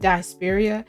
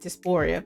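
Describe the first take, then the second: First: It is said like the word diaspora. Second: It is said like the word dysphoria. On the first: The speaker calls it right. "but dysphoria" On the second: The speaker calls it wrong. "I said dysphoria"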